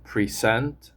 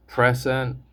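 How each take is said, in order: First: PreSENT, stressed on the second syllable; weak start of "present", strong rising end. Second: PRESent, stressed on the first syllable. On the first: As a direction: say "present" as the verb, pree-ZENT. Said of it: "is a verb". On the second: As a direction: say "present" as the noun, PREZ-ent. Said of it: "is a noun". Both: Shown as a demonstration.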